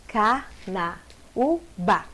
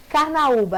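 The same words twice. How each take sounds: First: Very slow Carnaúba, car-na-ú-ba with gaps; syllable by syllable. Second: Said in the usual way. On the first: Shown as a demonstration. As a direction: split Carnaúba into four separate syllables. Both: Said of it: "a mesma coisa".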